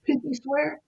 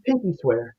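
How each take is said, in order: First: Put-on high, soft little-girl question; child's hopeful question. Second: Lower, falling answer; retold reassuring promise. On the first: Smiling sick girl asking caseworker to promise, soft high question. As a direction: ask softly and high, as a child would. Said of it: "she smiled and said". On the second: Caseworker promising the dying girl, gentle lower reassurance.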